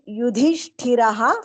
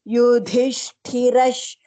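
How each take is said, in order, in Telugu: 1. ఈ పదం గాలి నిండిన h ధ్వనితో ముగుస్తుంది. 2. ఈ పదం sh ధ్వనితో ముగుస్తుంది. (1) "Yudhishthiraha followed by Sha will become uh, Ra plus Sha, Rash" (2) "Ra plus Sha, Rash"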